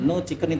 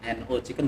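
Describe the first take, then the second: First: No is said as a single word. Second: No is spelled out letter by letter. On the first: The speaker calls it right. "nama satu kesatuan" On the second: The speaker calls it wrong. "dibaca potongan, misalnya N O Chicken juga tidak boleh"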